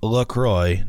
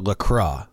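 First: The ending rhymes with the word enjoy. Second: The ending has a French 'wa' sound. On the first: The speaker calls it right. "is pronounced LaCroix ... it rhymes with enjoy" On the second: The speaker calls it wrong. "not LaCroix or LaCroix, like the French might say it"

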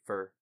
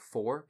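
First: The vowel is a reduced 'ur' sound. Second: The vowel is a full rounded 'or' sound. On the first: "A lot of people, where we're from ... say fur" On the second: "instead of saying for, because there's an O in that word"

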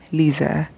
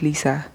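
First: The middle consonant is a buzzing Z sound. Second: The middle consonant is a hissing S sound. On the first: The speaker calls it right. "with a Z" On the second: The speaker calls it wrong. "not Lisa"

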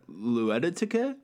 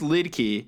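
First: The name is stretched into four syllables. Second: The name is said with two short syllables. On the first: The speaker calls it wrong. "I swear I said it like that" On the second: The speaker calls it right. "It's pronounced Lidki"

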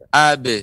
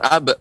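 First: The b is released with an echoing bounce. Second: The b is cut off with a glottal stop. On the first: The speaker calls it right. "Akan tapi ab" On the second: The speaker calls it wrong. "Tidak boleh ada hamzah"

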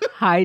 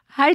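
First: The greeting is said in a low, gloomy voice. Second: The greeting is said in an ordinary, upbeat voice. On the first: The speaker calls it right. "I said in a depressed voice" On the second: The speaker calls it wrong. "oh, wait, sorry. Backtrack"

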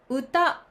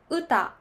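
First: The pitch starts low and rises. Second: The pitch starts high and falls. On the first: This is the standard Tokyo pronunciation. "これはスタンダード、低いから高い。" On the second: This is the Osaka pronunciation. "大阪では高いから低いになります。"

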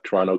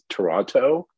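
First: The middle T sound is dropped. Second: The middle T sound is clearly pronounced. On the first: The speaker is a local. "If you're from Toronto, you don't pronounce the T in the middle" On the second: The speaker is not a local. "if you hear someone say it's Toronto, they're not from Toronto"

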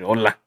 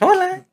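First: It is said in an angry tone. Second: It is said in a friendly tone.

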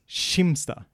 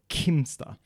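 First: The name begins with an sh sound. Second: The name begins with a k sound. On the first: This is how the locals say the name. "in this region, you don't say the k for this. You say a ch instead" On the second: This is how the speaker's own dialect says the name. "in my dialect in Sweden would be a K"

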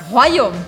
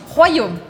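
The two takes are said the same way.

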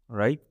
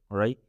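The two takes are said the same way.

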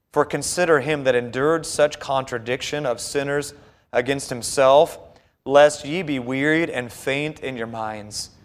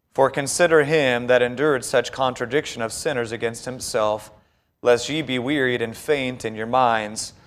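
Both takes have the same delivery.

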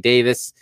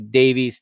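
First: The name is said with a British pronunciation. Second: The name is said with an American pronunciation. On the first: "in the UK they say Davis" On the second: "We in the US say Davies"

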